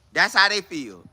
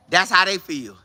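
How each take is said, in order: Both takes have the same delivery.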